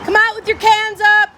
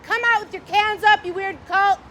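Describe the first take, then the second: First: Louder, higher mock command; mock order. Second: Lightly voiced stern official, higher; a hint of a commanding cop voice; mock authority. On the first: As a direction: bark it like a police loudspeaker. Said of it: "repeat of quoted order". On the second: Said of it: "He said".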